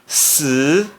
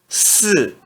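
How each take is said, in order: First: The pitch rises from middle to high. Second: The pitch falls sharply from high. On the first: "No segundo tom" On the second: "E no quarto tom"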